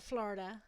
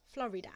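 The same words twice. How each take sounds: First: "Florida" said the way that is not her own, squeezed to two syllables; contrasting pronunciation. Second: "Florida" in three syllables, FLO-ri-da, Black Country accent; Black Country pronunciation. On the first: Streamer showing how not to say it, "Florida" in two syllables. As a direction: squash "Florida" into FLOR-da. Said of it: "Like, not, not Florida". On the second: British streamer showing her accent, "Florida" in three syllables. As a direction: say "Florida" as FLORRY-da. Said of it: "It's my accent". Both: Shown as a demonstration.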